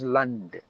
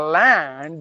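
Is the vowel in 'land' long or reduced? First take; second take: reduced; long. First: The vowel is short and reduced. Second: The vowel is long and full. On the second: "it's a long sound"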